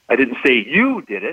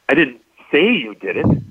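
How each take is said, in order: First: The stress is on the word you. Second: The stress is on the word say.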